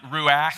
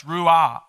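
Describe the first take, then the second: First: Ruach with a scraped ch in the throat; the wrong take, ruach from the throat; throaty ruach. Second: Ruah said louder, open h with no throat scrape; the right take, ruah clean and open. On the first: Pastor contrasting the old word, throaty ruach. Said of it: "like you have something in your throat". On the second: Pastor correcting to the right word, open ruah. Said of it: "but it's ruah". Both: Shown as a demonstration.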